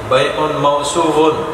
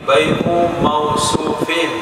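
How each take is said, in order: First: The last word ends in an -un sound. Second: The last word ends in an -in sound. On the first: The sale itself is what is described. The speaker calls it wrong. "jangan dibaca rofa. Kalau rofa berarti jadi naat dia" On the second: The goods sold are described by their qualities. The speaker calls it right. "katakan dengan ja"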